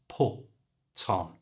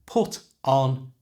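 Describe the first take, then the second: First: The t moves to the front of on. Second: The t stays at the end of put.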